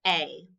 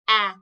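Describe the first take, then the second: First: Said in the usual way. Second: A as the short vowel in "cat"; letter sound. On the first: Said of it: "This is the letter A". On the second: Shown as a demonstration. Teacher showing what sound A makes, A said as short "a". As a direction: say A as "aah", short, not "ay". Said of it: "A makes the A sound".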